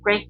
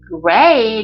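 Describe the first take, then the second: First: The vowel is short with a small mouth. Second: The vowel is long with a wide mouth. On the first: The speaker calls it right. "a 발음 들어가죠" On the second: The speaker calls it wrong. "great 이렇게 하는 게 아니라"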